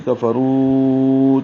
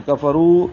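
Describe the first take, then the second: First: Very slow کفروا with the final و stretched long; recitation, final و drawn out; long madd, four counts. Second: کفروا with the ک and ف said quickly; quick کفروا, short vowels; quick kaf and fa. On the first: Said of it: "چار حرکات لمبا کریں گے". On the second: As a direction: snap through کفروا, the ک and ف crisp and fast. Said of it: "کاف فا کو جلدی پڑھیں گے". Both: Shown as a demonstration.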